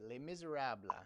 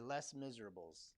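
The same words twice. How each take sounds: First: The title is said with French pronunciation. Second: The title is said with English pronunciation.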